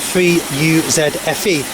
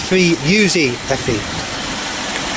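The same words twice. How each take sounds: First: It is said with a non-American pronunciation. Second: It is said with an American pronunciation.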